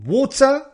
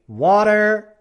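First: WATER as WAW-tuh; British WATER with sounded t, no r; British option. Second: Louder WATER as WAH-der; American WATER with final r; American option. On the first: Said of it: "si tú quieres pronunciarlo". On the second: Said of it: "Si prefieres decir". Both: Shown as a demonstration.

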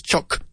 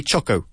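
First: CHOC cut short on the k; short, soft CHOC as one syllable; correct single syllable. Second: CHOCO with a sounded final "oh"; wrong two-vowel start. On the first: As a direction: say "chok", no vowel after it. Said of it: "It's choc". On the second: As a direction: show the mistake "CHOK-oh". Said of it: "We don't say choco". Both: Shown as a demonstration.

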